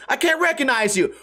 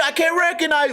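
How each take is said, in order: First: Higher, puzzled retelling of "I can't recognize you"; imitating a confused tweaker. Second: Much higher, dopey mocking take on "I can't recognize"; mock caveman. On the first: Retelling what the tweaker shouted, lightly imitated. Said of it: "they're like". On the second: Mocking the tweaker's words as a caveman, hammed up. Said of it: "Caveman talking to caveman".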